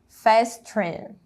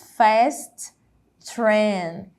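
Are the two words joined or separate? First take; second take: joined; separate. First: The two words are joined into one. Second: The two words are said separately.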